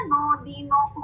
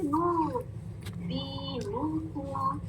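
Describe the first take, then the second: First: दीनुकुम as "dee-no-kum"; old mistake. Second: Slow दीनुकुम with long rounded "noo"; correct "noo". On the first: Teacher imitating how they used to read, wrong "o" vowel. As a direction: run दीनुकुम quicker with "no" for "noo". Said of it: "जो पहले हम पढ़ते रहे ना". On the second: Teacher giving the correct reading, slow rounded "oo". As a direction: stretch नू and दीनुकुम softly on rounded lips. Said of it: "ये क्या है". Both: Shown as a demonstration.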